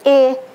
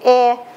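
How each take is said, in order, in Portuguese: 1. A vogal é um e fechado. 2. A vogal é um e aberto. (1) "Sem acento é o E" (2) "O som do E, com acento, é o nosso E aberto"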